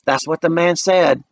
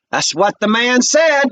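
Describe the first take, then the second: First: Said in the usual way. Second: Higher, very slow and pointed; proud Benita. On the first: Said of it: "See what Benita did there". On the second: A narrator's reading. Benita backing her brother, slow and pointed. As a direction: let it land with pride.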